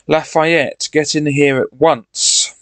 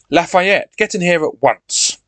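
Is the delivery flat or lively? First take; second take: flat; lively. First: It is spoken in a flat, wooden way. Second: It is spoken in a lively, expressive way. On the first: The speaker calls it wrong. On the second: The speaker calls it right.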